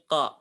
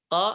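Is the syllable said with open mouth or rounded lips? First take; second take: open; open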